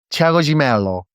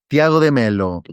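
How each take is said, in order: First: The name is said in a Brazilian accent. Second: The name is said in a Spanish accent.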